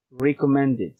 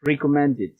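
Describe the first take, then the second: First: Recommended again, id ending clear; repeated model. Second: Recommended, extra syllable id at the end. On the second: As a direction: model recommended clearly for repetition. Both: Shown as a demonstration. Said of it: "please follow me".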